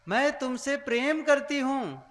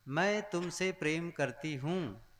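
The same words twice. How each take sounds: First: It is said loudly. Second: It is said at normal volume.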